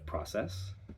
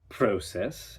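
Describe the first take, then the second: First: It uses the familiar everyday pronunciation. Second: It uses the coached accent's pronunciation. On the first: "instead of" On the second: "Here are some different pronunciations entirely"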